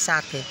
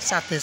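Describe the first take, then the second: No difference in how they are said.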